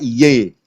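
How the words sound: The word ends with an 'e' vowel. This is how someone from Jakarta says it. "kalau orang Jakarta"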